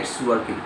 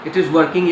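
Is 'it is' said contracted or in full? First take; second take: contracted; full. First: It is shortened to one syllable, its. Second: It and is are said as separate words.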